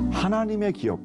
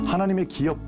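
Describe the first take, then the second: First: The first word carries the emphasis. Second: The second word carries the emphasis. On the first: God is the owner of everything we are given. The speaker calls it right. "이렇게 하나님의 방점을 두고 읽으면" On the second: Our lives must be lives that make a profit. The speaker calls it wrong. "기업의 방점을 두고 읽으면"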